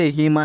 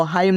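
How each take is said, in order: First: हिम with a plain "i" vowel; correct reading of HIM. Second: हाइम with an "eye" diphthong; wrong reading of HIM. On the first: Teacher giving learners the right reading, हिम as "him". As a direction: say हिम as "him", not "haim". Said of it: "क्या पढ़ना है". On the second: Teacher warning learners off a misreading, हाइम as "haim". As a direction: misread हाइम to rhyme with "time". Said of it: "नहीं पढ़ना". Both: Shown as a demonstration.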